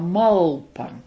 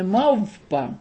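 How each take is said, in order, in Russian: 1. Согласный перед p — это l. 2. Согласный перед p — это v. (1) "а малпа. Не В, а Л" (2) "Он называл ее не мавпа"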